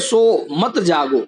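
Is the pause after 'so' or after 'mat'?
after so. The pause comes after the word so. Go to sleep, don't stay awake. "यानी कि तू सो जा, जागना मत"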